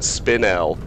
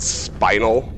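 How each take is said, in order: First: It does not sound like the word spinal. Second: It sounds exactly like the word spinal. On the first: The speaker calls it right. "According to the dictionary, you pronounce it spinel" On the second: The speaker calls it wrong. "I've always said spinal, like Spinal Tap"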